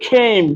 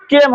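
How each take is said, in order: First: খেম with an aspirated kh and ei glide; খেম said as kheim; correct pronunciation. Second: কেম with an unaspirated k and plain e; কেম on a short, glideless e; wrong pronunciation. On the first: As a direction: puff the first sound of খেম. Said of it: "সি এর উচ্চারণ খ". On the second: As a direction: say কেম with no puff on the k. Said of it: "কেম হবে না". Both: Shown as a demonstration.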